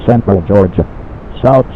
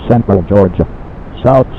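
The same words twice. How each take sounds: The two takes are said the same way.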